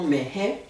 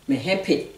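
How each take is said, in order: First: The word ends without a final p sound. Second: The word ends with an audible final p sound. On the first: This is the form used in the song. "dans la chanson, le P, il tenait pas" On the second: This is the form used in everyday speech. "quand le terme est tout seul, dans le langage parlé, on dit hempe"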